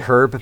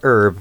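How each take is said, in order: First: It is said with the h pronounced. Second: It is said American style, with silent h.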